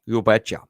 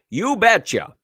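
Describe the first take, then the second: First: Low-key Minnesota "you betcha"; Minnesota accent. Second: High, punchy Minnesota "you betcha"; Minnesota accent. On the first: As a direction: toss it off in a Minnesotan accent, lower. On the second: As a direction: put on a folksy Minnesotan accent, pitched up. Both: Pretend. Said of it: "In my best Minnesota accent".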